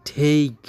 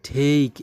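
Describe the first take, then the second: Both takes have the same delivery.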